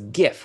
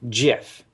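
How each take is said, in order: First: It begins with a hard G sound. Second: It begins with a soft G sound. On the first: "GIF with a hard G" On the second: "it's a soft G GIF"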